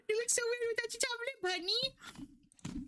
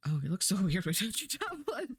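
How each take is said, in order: First: Very high, fast, squeaky teasing voice; squeaky put-on voice. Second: Said in the usual way. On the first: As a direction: squeak it out quickly in a silly falsetto. Repeats the remark in a squeaky voice.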